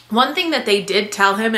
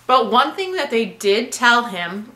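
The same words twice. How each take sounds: First: Said in the usual way. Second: Talking while chewing gum; words around a piece of gum. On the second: Real, not acted. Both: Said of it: "I'm sorry, I have gum".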